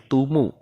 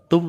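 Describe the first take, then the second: First: The m is followed by an added u vowel. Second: The syllable ends on a bare m sound. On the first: The speaker calls it right. "tapi tumu ya" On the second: The speaker calls it wrong. "bukan tum lagi"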